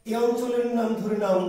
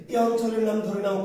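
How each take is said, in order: Both takes have the same delivery.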